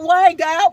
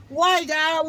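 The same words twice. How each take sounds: First: A louder, higher cry of why. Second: Rising plea. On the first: Retelling her prayer to God, crying out loud. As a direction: call it out to God in anguish. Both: Retold or imitated. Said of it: "crying out to God".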